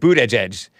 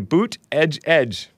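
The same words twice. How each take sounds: First: The name is said quickly, syllables run together. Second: The name is said slowly, syllables kept separate. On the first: "You're supposed to say it fast" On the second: "when they spell out the pronunciation"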